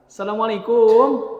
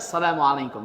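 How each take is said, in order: First: The final 'kum' syllable is drawn out long. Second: The final 'kum' syllable is kept short. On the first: The speaker calls it wrong. "panjang kumna ge" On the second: The speaker calls it right. "Harusnya pendek"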